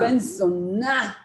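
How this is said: The stress is on zona, said as curse.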